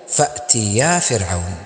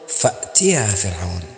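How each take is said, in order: First: The push falls on the ya syllable. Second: The push falls on the ta syllable. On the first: It sounds as if Pharaoh is addressed. The speaker calls it wrong. "والخطأ أن تدفع الياء فتقول" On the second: Two people are told to go to Pharaoh. The speaker calls it right. "الصحيح أن تقول فأتيا فرعون بدفع التاء"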